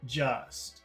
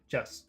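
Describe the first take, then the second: First: The word is said slowly with a long vowel. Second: The word is said quickly with a clipped vowel. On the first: The speaker calls it right. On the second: The speaker calls it wrong.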